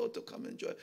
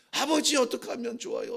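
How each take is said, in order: First: Whispered plea. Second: Mild plea, stress on 아버지; a son crying out 아버지 to his father; pleading cry. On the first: David repeats his plea to God, whispering. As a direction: repeat 좋아요 in a voiceless whisper. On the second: David pleads to God the father, mild pleading cry. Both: Retold or imitated.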